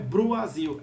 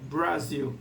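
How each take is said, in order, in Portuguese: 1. Uma vogal 'oo' completa vem depois do B. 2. O B vai direto para o R. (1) "Não é Bruazil" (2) "é Brasil"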